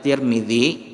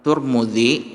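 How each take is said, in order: First: The first two syllables have the vowel i. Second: The first two syllables have the vowel u. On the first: "Boleh dibaca Tirmizi" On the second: "boleh dibaca dengan Turmuzi"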